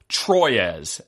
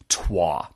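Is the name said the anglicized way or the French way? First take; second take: anglicized; French. First: The name is said with an anglicized pronunciation. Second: The name is said with French pronunciation.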